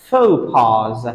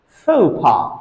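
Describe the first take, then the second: First: The word is said in its plural form. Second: The word is said in its singular form. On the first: There are several social blunders. "the plural form of this word is pronounced as faux pas" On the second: There is one social blunder. "Faux pas is the singular form of this word"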